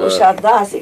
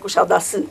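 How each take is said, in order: First: The name is pronounced the Romanian way. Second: The name is pronounced the Turkish way. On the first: "ca să înțeleagă tot românul" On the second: "Ei pronunță Kushadasi"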